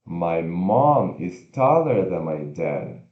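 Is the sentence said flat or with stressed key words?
stressed key words. Mom, taller and dad are said more strongly. The speaker calls it right. "A gente vai fazer mais forte as palavras mais importantes"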